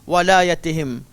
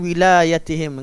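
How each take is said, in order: First: The first vowel is an 'a' sound. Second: The first vowel is an 'i' sound. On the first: This is the reading most reciters use. "semua kiraat baca walayatihim" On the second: This is a minority reading tradition. "membaca dengan wilayatihim dengan baris bah, bawah"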